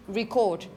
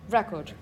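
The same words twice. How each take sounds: First: The stress is on the second syllable. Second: The stress is on the first syllable. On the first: It is a verb, the action of recording. "The stress is on the second syllable" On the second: It is a noun, a thing that was recorded. "When it's a noun or an adjective"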